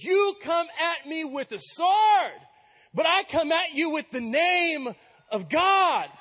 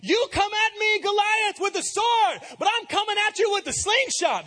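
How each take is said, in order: First: Slow, loud proclamation, louder and higher; bold command. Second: Much higher, loud hammed-up battle cry; mock heroic shout. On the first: Retold or imitated. David answering the giant, slow, shouted, fearless. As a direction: declare it slowly with full force. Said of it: "This is what he says". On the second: Shown as a demonstration. Preacher mocking how David's line should have sounded, hammed-up and shouted. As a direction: overdo it like a cartoon hero. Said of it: "It should have sounded like".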